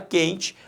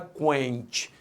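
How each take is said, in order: First: The u after the q is silent. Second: The u after the q is pronounced. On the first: The speaker calls it right. "você fala quente" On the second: The speaker calls it wrong. "Você não fala quente"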